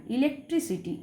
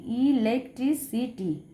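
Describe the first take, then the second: First: Said in the usual way. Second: ইলেকট্রিসিটি said slowly, all five syllables apart. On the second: Shown as a demonstration. (ইলেকট্রিসিটি পাঁচটা সিলেবলে ধীরে ভেঙে বলা) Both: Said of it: "পাঁচটা রয়েছে".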